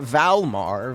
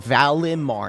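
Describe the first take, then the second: First: The middle 'i' syllable is dropped. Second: The middle 'i' syllable is clearly pronounced. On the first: The speaker calls it wrong. "not Valmar" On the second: The speaker calls it right. "I need you to emphasize the I"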